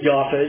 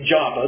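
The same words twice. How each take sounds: First: The name is said in its modern Hebrew form. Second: The name is said in its familiar English form. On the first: "Joppa is the true pronunciation" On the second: "We always say Joppa"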